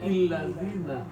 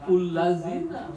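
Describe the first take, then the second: First: The word begins with an i vowel. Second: The word begins with an u vowel. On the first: "atau illazina" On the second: "Bukan ullazina"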